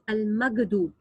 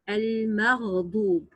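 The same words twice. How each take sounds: First: The middle consonant is a hard g sound. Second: The middle consonant is a deep gargled throat sound. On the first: The speaker calls it wrong. "Some mispronounce it like al-maghdub, and this is also wrong" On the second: The speaker calls it right. "the sound of ghain emitted with a deep gargling uh, in the throat"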